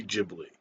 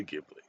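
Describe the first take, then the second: First: Ghibli said as Jibli; Ghibli starting like gym; soft G. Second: Ghibli with a hard G; hard G to open Ghibli. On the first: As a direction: say Ghibli with an opening J sound. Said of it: "I think it's supposed to be". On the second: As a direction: say Ghibli starting as in give. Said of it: "but I say Ghibli". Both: Shown as a demonstration.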